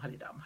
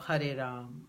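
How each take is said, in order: First: The phrase is repeated very fast. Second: The phrase is repeated slowly. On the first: The speaker calls it right. "say it really fast" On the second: The speaker calls it wrong. "But that's too slow"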